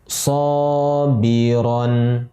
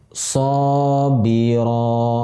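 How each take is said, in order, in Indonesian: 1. Kata itu berakhir dengan bunyi n. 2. Kata itu berakhir dengan vokal biasa. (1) "Jadi sobiron" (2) "kita wakafkan menjadi sobiro"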